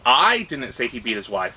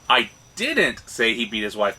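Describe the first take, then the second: First: The stress falls on the word "I". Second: The stress falls on the word "say". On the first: Someone else said it. "if the emphasis is, is" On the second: Something else was said. "but I said something else"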